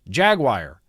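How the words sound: Jaguar is pronounced in an American way. "Americans, I always hear Jaguar"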